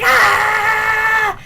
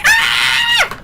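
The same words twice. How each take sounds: First: Loud, drawn-out mock scream; imitated scream. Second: Very high, loud squealing scream; excited fan scream. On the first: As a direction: scream like a man stuck in a nightmare. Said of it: "Adrian just starts screaming". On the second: Retold or imitated. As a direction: shriek at the top of the range. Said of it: "I'm like".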